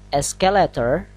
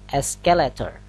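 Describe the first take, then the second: No difference in how they are said.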